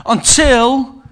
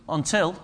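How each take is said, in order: First: "until" pushed out louder with a rise. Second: "until" said softly with a rising lilt. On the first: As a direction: punch "until" up and out. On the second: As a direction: breathe "until" gently, trailing up. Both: Shown as a demonstration. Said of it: "repeated until".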